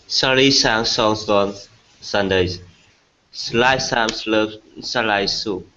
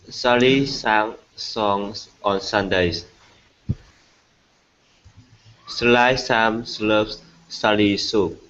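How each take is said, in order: First: It is said at a faster speed. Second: It is said at a normal speed.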